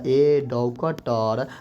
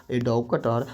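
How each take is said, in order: First: Very slow, drawn out; stretched classroom example; slow dictation. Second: Said in the usual way. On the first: Shown as a demonstration. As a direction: say it slowly for the class. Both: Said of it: "जैसे कहेगा".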